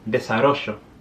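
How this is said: It is said in an Argentine Spanish accent.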